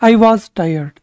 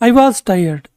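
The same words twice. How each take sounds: The two takes are said the same way.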